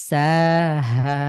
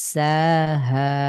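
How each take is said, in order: The two takes are said the same way.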